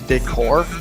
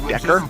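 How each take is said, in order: First: It is pronounced the standard way. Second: It is pronounced to rhyme with vector. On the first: The speaker calls it right. "the word is decor" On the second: The speaker calls it wrong. "he does that to rhyme with vector"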